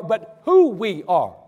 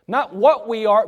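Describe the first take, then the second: First: "who" drawn out and slowed for emphasis; "who" stretched as the point that matters; stress on who. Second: "what" leaned on, set against who; "what" pressed as the wrong thing; stress on what. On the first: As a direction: land hard on "who". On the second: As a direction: hit the word "what" to contrast it. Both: Shown as a demonstration.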